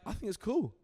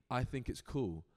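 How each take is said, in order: First: High, louder voicing of the agent; agent's approval. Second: Said in the usual way. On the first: Agent approving the writer's unusual style, lightly imitated. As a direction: imitate her breezy okay, pitched well up.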